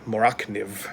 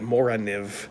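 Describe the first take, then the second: First: A k sound is heard in the middle. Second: No k sound is heard in the middle. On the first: This is how other people say it. "I've heard other people say" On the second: This is how the speaker usually says it. "I always pronounced it"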